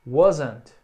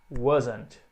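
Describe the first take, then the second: First: Wasn't said loud with a falling end; a clear, loud wasn't; loud contracted form. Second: Wasn't said softer with a falling end; a soft second wasn't; soft contraction. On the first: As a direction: punch wasn't, then drop. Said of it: "a forma curtinha". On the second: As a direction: repeat wasn't gently. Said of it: "was not". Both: Shown as a demonstration.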